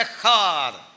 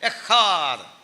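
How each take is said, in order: First: The middle consonant is a strong, punchy h sound. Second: The middle consonant is a strong, punchy h sound.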